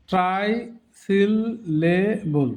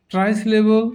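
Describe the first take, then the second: First: ট্রাইসিলেবল very slowly in four beats; broken into syllables. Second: Said in the usual way. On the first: Shown as a demonstration. Teacher showing the term to learners, ট্রাইসিলেবল broken up slowly. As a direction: gaps between all syllables of ট্রাইসিলেবল. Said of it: "ভেঙে ভেঙে দেখানো হয়েছে". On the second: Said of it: "এমনি উচ্চারণ করব".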